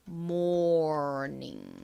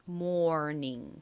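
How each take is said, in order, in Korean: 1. 이 단어는 천천히 발음해요. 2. 이 단어는 빨리 발음해요. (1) "천천히 하면" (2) "빨리 하면"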